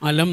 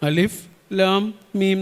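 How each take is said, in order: First: The letters are run together into one short word. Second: Each letter is named separately as its own word. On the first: The letters form part of an ordinary sentence. "പക്ഷെ നമ്മൾ അങ്ങനെയല്ല വായിക്കുക. അലം എന്നാണ് വായിക്കുക" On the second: The letters stand alone at the start of a chapter. "നമ്മളതെങ്ങനെ വായിക്കുക? അലിഫ്, ലാം, മീം എന്ന് വായിക്കും"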